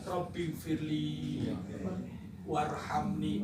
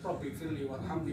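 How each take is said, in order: First: It is recited slowly with long, drawn-out vowels. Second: It is recited hastily with clipped, short vowels. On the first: It carries the intended request for forgiveness and mercy. The speaker calls it right. "Bacaan panjang" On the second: The words no longer match the intended request. The speaker calls it wrong. "karena tergesa-gesa dibaca pendek"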